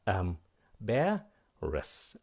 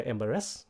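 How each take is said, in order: First: "embarrassed" slowly broken up, stress on BAR; slow teacher's "embarrassed", leaning on the second syllable. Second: "embarrassed" with the stress off the second syllable; quick "embarrassed" without the beat on BAR; wrong pronunciation. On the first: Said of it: "Nhấn âm thứ hai". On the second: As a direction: mispronounce "embarrassed", last syllable lifted. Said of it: "đừng có embarrassed". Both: Shown as a demonstration.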